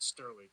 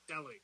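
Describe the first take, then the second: First: The name is said with an R sound. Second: The name is said without an R sound. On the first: The speaker calls it wrong. "not Sterling" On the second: The speaker calls it right. "it's Stelling"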